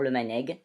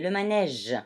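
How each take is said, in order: First: The g is said as a hard g. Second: The g is said as a soft j sound. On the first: The speaker calls it wrong. "je ne vais pas dire le manègue" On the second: The speaker calls it right. "mais le manège"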